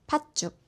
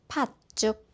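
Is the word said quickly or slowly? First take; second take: quickly; slowly. First: The word is said at a faster pace. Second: The word is said at a slower pace. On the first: "조금 더 빠르게 말해볼게요" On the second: "같이 한번 따라 말해보세요"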